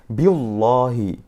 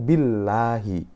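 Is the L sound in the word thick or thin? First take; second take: thick; thin. First: The L is pronounced thick and heavy. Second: The L is pronounced thin and light. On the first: The speaker calls it wrong. "Yang salah adalah bacanya" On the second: The speaker calls it right. "dia harus dibaca tipis"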